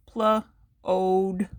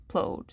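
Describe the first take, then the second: First: PL-ODE in two stretched chunks, PL, then ODE; sounded out. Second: Said in the usual way. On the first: Shown as a demonstration. Teacher breaking a syllable down for learners, sounded out in parts. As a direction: sound out PL-ODE slowly, part by part. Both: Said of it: "So we put it together".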